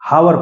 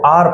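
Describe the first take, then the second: First: The word begins with an h sound. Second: The word begins with a vowel sound. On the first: The speaker calls it wrong. "हावर पढ़ देते हो" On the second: The speaker calls it right. "जो actual में सही सही पढ़ा जाता है वो आर पढ़ा जाता है"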